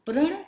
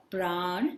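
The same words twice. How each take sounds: First: प्रण with a short "a"; short vowel in प्रण. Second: प्राण with a long open "aa"; long vowel in प्राण. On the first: Teacher fills the blank for children, प्रण with short "a". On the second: Teacher fills the blank for children, प्राण with long "aa". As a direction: stretch the vowel of प्राण: "praan". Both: Shown as a demonstration. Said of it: "मात्रा अथवा व्यंजन में थोड़ा सा अंतर होता है".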